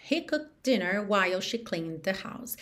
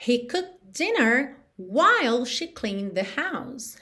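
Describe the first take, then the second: First: Said in the usual way. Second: Slow English model with clear breaks; slow model sentence. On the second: Shown as a demonstration. Teacher demonstrating an English example sentence, slow and careful. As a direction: say it slowly, phrase by phrase.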